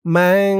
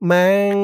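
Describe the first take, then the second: First: ম্যাং with a clear nasal ghunna hum. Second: Said in the usual way. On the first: Shown as a demonstration. Teacher demonstrates ghunna on ম্যাং, nasal hum. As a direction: let ম্যাং ring through the nose. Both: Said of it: "গুন্নাহ করতে হবে".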